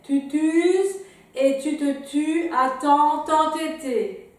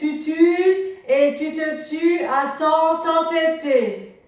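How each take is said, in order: First: It is spoken somewhat louder than before. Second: It is spoken at the loudest volume. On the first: "un petit peu plus fort" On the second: "toujours plus fort"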